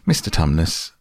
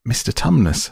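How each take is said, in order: First: Said in the usual way. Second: Higher, urgent repeated call; distressed. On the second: Acted. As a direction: call his name again in distress. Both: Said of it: "said Lucy in a great distress".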